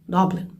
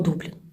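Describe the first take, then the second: First: The first vowel sounds like ah. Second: The first vowel sounds like oo. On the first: This is how the Irish and British say it. "От вони говорять Даблін, Даблін. Тобто друга буква читається як А" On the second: This is the usual Ukrainian way of saying it. "правильно українською мовою Дублін. Ми всі говоримо Дублін"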